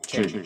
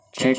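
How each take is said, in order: First: The voice is shifted to sound like a man. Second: The voice sounds natural without any pitch shift. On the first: "Male voice"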